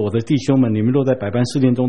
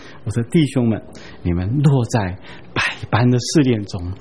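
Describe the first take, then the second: First: It is read flatly, straight through without lingering. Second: It is read expressively, like reciting a poem. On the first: The words are read without taking them in. The speaker calls it wrong. "不要只是这样读" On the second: The words are savored and taken in. The speaker calls it right. "读得有韵味一点啊、像吟诗朗诵一样"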